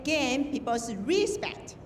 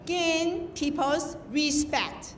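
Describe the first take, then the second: First: Slow "respect" with stress on SPECT; correct stress in "respect". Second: Very slow, spaced-out "respect" with stress on RE; misplaced stress in "respect". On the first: Judge shows contestants the right accent, "respect" stressed on SPECT. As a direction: lift the second syllable of "respect". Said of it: "You say". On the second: Judge shows contestants the mistake, "respect" stressed on RE. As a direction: wrongly hit the RE of "respect". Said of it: "You don't say". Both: Shown as a demonstration.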